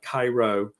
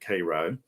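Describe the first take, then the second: First: It is pronounced like the city in Egypt. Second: It is pronounced the local Georgia way. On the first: This is the name of the city in Egypt. "It's spelled like Cairo, Egypt" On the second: This is how locals say the Georgia town's name. "but we pronounce it Cairo"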